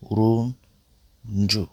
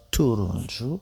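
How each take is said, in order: First: Turuncu drawn out slowly syllable by syllable. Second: Said in the usual way. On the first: Shown as a demonstration. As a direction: stretch out turuncu slowly for learners. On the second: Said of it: "first take".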